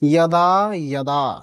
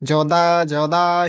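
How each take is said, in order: First: The word begins with a Y sound. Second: The word begins with a J sound. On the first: The speaker calls it right. "তাহলে উচ্চারণ হবে" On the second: The speaker calls it wrong. "বিভিন্ন অঞ্চলে এই বর্ণের উচ্চারণ করা হয় জ"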